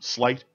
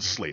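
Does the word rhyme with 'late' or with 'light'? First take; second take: light; late. First: The vowel sounds like the one in 'light'. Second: The vowel sounds like the one in 'late'. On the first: The speaker calls it right. "Slight, check it out" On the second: The speaker calls it wrong. "don't pronounce it Slate"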